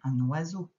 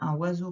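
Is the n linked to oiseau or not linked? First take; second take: linked; not linked. First: The n is carried over into oiseau. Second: The n is not carried over into oiseau. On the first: The speaker calls it right. "c'est que tu fasses la liaison" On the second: The speaker calls it wrong. "On ne dit pas un oiseau quand on parle"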